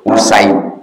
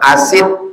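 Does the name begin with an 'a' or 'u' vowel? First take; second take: U vowel; A vowel. First: The name begins with a 'u' vowel. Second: The name begins with an 'a' vowel. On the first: The speaker calls it right. "Salah, bukan asid. Usaid" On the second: The speaker calls it wrong. "kalau salah-salah dibaca orang asid"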